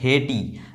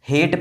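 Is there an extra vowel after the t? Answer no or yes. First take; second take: yes; no. First: An extra vowel is added after the t. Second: The word ends on the t sound. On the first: The speaker calls it wrong. "ना कि हार्टे या फिर हेटी" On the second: The speaker calls it right. "हेट pronounce कर रहे हैं"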